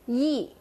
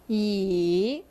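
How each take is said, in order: First: The pitch falls sharply from high to low. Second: The pitch dips down and then rises. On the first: It means ten million. "You kind of say it sharply" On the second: It means already. "You bring it down and then bring it back up"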